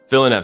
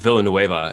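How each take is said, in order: First: The name is said with a French sound. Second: The name is said with a Spanish sound. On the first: The speaker calls it right. "you hit me with the pronunciation one more time" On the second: The speaker calls it wrong. "as if he is like South American. He's not"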